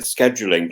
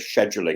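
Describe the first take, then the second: First: It is said the American way, with a k sound. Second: It is said the British way, with a sh sound.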